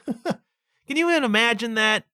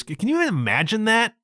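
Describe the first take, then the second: First: "Can you even imagine that?" said through a laugh, higher; "Can you even imagine that?" chuckling in disbelief. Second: Said in the usual way. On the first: Real, not acted.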